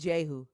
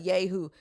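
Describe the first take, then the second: First: The name begins with a J sound. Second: The name begins with a Y sound. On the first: This is how English readers will see it. The speaker calls it right. "They're gonna see a J there" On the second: This is the Hebrew form. The speaker calls it wrong. "Yehu is in the Hebrew"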